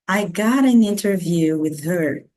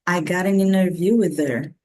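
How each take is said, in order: First: The t sound is pronounced at a normal pace. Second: The t sound is dropped in fast, linked speech.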